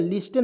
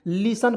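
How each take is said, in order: First: लिस्टेन with the T sounded; wrong pronunciation. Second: लिसन without any T; correct silent T. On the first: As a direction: say लिस्टेन as "lis-ten". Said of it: "लिस्टेन नहीं पढ़ेंगे". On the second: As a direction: say लिसन as "li-san". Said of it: "लिसन पढ़ते हैं". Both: Shown as a demonstration.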